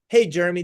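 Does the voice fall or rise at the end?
fall. The voice falls flatly at the end. It sounds like a typical sales pitch. The speaker calls it wrong. "What Evan just did is turn that switch on in your brain"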